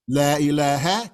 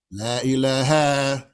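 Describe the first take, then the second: First: La ilaha with a short final ha. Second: Slow La ilaha with the final ha drawn out; wrong long ha. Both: Shown as a demonstration. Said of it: "never to lengthen that ha".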